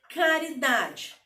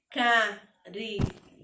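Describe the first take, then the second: First: Said in the usual way. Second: "caridade" slowly broken into four separate sounds; syllable by syllable. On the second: Shown as a demonstration. Teacher showing pupils how to count sounds, "caridade" split syllable by syllable. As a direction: say "caridade" in four beats, pausing after each syllable. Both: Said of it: "eu emito quatro sons".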